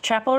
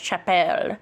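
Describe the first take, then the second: First: The name is said in a plain English way. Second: The name is said in a French-sounding way. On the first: The speaker calls it right. "that's [name]" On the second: The speaker calls it wrong. "I thought it was Frencher than it actually is"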